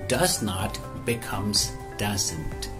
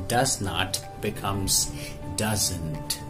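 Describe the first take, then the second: Both takes have the same delivery.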